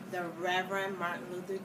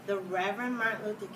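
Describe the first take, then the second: No difference in how they are said.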